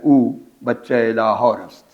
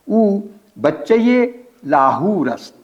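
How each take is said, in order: First: It is spoken with a South Asian Persian accent. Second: It is spoken with an Iranian Persian accent. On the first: "अगर यहाँ के लहजे के मुताबिक पढ़ेंगे" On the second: "ये लहजा बिल्कुल ईरानी है"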